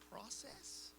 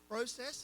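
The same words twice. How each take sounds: First: It is said with an American pronunciation. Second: It is said with an Australian pronunciation. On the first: This is the way it is said now. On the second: This is the way it used to be said.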